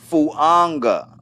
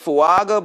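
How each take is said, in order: First: The name is said with an N sound. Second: The name is said without an N sound. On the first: This is how the owner pronounces it. The speaker calls it right. "the way it's pronounced is Fuanga with like an N in it" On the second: This is how the spelling looks. The speaker calls it wrong. "it looks like Fuaga"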